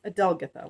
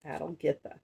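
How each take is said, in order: First: Adelgitha said a-DEL-gith-a, stress on DEL; settled pronunciation. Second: Adelgitha said AD-el-GITH-a, stress on first and third syllables; trial pronunciation. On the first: Reader settling on a princess's name, Adelgitha as a-DEL-gith-a. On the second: Reader sounding out a princess's name, Adelgitha as AD-el-GITH-a. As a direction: say Adelgitha as AD-el-GITH-a, low and unsure. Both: Shown as a demonstration. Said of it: "That's probably how it's pronounced".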